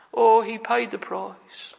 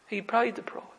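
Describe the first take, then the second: First: Slow, weighty preaching of the line; slow emphatic. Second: Much softer repeat, falling away; soft echo. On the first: Preacher to congregation, slow and weighty. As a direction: lean on each word, slowly. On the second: Preacher to congregation, a hushed echo. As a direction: let it fade to a hush. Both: Acted.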